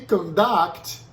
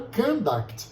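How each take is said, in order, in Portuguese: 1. A tônica está na segunda sílaba. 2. A tônica está na primeira sílaba.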